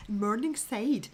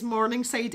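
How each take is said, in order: First: Drawn-out, very posh Scots "Morningside"; posh Morningside Scots, stretched out; posh Scots accent. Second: Said in the usual way. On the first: Shown as a demonstration. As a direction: say "Morningside" slowly in a refined Edinburgh accent. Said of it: "That's very posh Scots".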